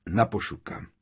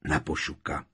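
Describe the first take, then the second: First: Restrained, grave toast; solemn toast. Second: Low, subdued answering toast; grave, lower-pitched response; chorused toast. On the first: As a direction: raise a toast to the fallen. Bill raises a toast, leading. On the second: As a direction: echo the toast as a group would. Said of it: "Přidali se všichni sborem". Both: A narrator's reading.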